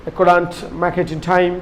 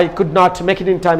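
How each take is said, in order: First: "couldn't" run together as one contracted word; contracted pronunciation. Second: Said in the usual way. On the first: Shown as a demonstration. Teacher showing learners the international English way, "couldn't" contracted. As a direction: say "couldn't" contracted, not as two separate words. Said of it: "international ইংলিশে". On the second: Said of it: "আমি তো contraction মিলিয়ে কর".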